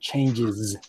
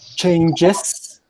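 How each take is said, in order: First: The word ends with a 'z' sound. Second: The word ends with an 's' sound. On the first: The speaker calls it right. "with z at the end" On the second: The speaker calls it wrong. "the pronunciation is not changes"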